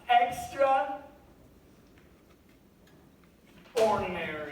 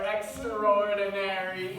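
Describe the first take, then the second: First: The word is said slowly, split in two. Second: The word is said fast, run together.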